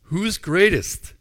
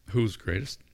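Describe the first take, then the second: First: Who's greatest louder, higher and slow, greatest stretched; incredulous. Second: Said in the usual way. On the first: Acted. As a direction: repeat their answer in loud disbelief. Jesus repeats in disbelief.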